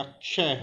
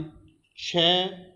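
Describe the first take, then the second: First: क्षय said as aspirated "chhe"; letter-sound demo. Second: क्षय said as unaspirated "che"; letter-sound demo. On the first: Teacher giving second sound of X, क्षय as "chhe". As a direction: say second क्षय with a puff of air. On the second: Teacher giving first sound of X, क्षय as "che". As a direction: say first क्षय without a puff of air. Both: Shown as a demonstration. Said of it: "एक्स का उच्चारण".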